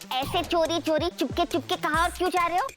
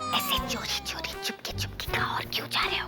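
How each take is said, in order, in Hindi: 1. यह और ज़ोर से बोला गया है। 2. यह बहुत धीरे से बोला गया है। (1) "थोड़ा बढ़ाओ" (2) "इतनी धीरे बोलने के लिए नहीं बोला था"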